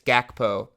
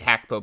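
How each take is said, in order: First: The name starts with a hard G sound. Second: The name starts with a breathy H sound. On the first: This is how everyone usually says the name. "It's Gakpo" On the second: This is the original native pronunciation. "It's actually Hackpo, but no one calls him that"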